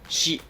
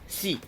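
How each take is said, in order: First: The syllable begins with an sh sound. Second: The syllable begins with a plain s sound. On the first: The speaker calls it right. "You pronounce it and write it as shi" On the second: The speaker calls it wrong. "you don't pronounce it or write it as si, like S and I"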